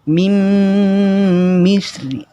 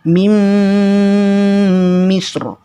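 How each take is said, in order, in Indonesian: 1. Bunyi ro dibaca tipis dan ringan. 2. Bunyi ro dibaca tebal dan berat. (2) "maka ro dibaca tebal"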